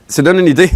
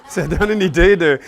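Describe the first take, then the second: First: Said in the usual way. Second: Says it through a real laugh; amused, laughing repeat. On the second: Real, not acted. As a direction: let the laugh spill into the words.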